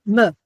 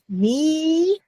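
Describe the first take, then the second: First: The vowel is barely sounded and very short. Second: The vowel is a full, long ee sound. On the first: "just enough to get to the t next" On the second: "like meat"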